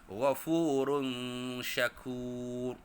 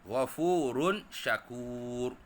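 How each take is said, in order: First: The n sound is hidden and nasalized. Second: The n sound is pronounced clearly. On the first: "contoh tanwin yang seterusnya untuk hukum ikhfa hakiki" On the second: "kalau tak ikut hukum ikhfa hakiki"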